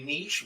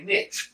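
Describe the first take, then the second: First: It is said the European way. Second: It is said the American way. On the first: "the Europeans say niche" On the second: "we say niche"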